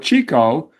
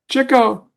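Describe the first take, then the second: First: The first vowel is long, like cheek. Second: The first syllable sounds like chick. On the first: The speaker calls it wrong. "I was pronouncing it wrong" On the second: The speaker calls it right. "He was the one chasing the chicks"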